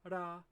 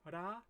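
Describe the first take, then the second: First: The R is a quick downward tongue flick. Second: The R is a quick downward tongue flick.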